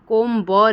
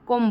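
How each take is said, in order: First: The word ends with an audible b sound. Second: The word ends with no b sound. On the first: The speaker calls it wrong. "कोम ब नहीं बोला जा रहा है" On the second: The speaker calls it right. "कोम बोला जा रहा है"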